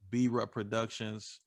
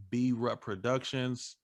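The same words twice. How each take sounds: The two takes are said the same way.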